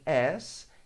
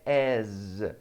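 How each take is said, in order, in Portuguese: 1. A palavra termina com um s sibilante. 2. A palavra termina com um z sonoro. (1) "Se eu falar em as, eu falo daquele com dois S" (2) "Note que eu coloquei um som de Z"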